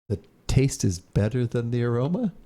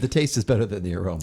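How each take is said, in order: First: The voice rises at the end like a question. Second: The voice falls at the end like a statement. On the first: It is asked as a question. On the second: It is stated as a fact.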